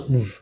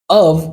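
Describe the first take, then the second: First: The word shrinks to a v sound. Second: The word keeps its full vowel.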